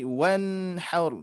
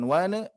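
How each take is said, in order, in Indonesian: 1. n mengalir halus ke h. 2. n memantul dengan tambahan vokal. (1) "dialirkan saja" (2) "bukan wana"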